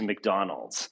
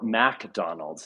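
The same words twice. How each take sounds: First: It is said in a plain accent. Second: It is said in a Southern accent.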